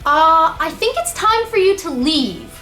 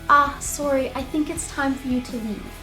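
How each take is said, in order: First: It is said in a casual, informal tone. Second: It is said in a polite, formal tone.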